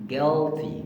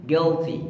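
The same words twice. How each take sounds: No difference in how they are said.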